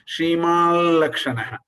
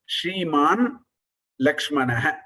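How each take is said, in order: First: The first word ends in a nasalized l sound. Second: The first word ends in a plain n sound. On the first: The words are joined together. "in Sandhi, it becomes Shrimal Lakshana" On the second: The words are split apart. "the Padacheda is Shriman Lakshmana"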